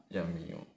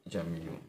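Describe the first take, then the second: The two takes are said the same way.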